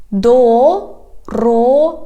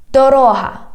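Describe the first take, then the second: First: "Дорога" slow, in separate syllables. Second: Said in the usual way. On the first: Shown as a demonstration. Teacher has learners repeat, "Дорога" slowly by syllables. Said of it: "divide it into syllables". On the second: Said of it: "I read the whole word".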